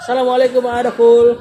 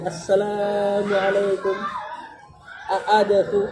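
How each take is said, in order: First: The greeting is said at normal length. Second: The greeting is drawn out and lengthened.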